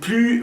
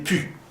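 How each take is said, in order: First: The word is said with its l sound. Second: The word is said without the l sound. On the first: "en vez de decir plus" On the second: "va a decir pu"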